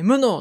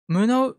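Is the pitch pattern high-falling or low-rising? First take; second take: high-falling; low-rising. First: The pitch starts high and falls after the first mora. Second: The pitch starts low and rises after the first mora. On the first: "無能ってこと？" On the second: "無能じゃなくて、"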